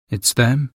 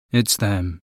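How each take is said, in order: First: It's them? rising on them, asking; questioning rise. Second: It's them, falling low and quiet; grim certainty. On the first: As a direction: lift them into a doubtful question. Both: Acted. Mata asks, then concludes.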